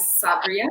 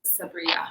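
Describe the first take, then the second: First: Sabria said the Turkish way, with an E-sound ending; Turkish pronunciation. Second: Sabria said as in Arab countries, ending in A; Arabic pronunciation. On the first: Guest introducing her name to the host, Sabria in Turkish pronunciation. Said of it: "they end with a E sound". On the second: Guest showing the host how Arabs say it, Sabria in Arabic pronunciation. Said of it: "Arab countries, everybody says". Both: Shown as a demonstration.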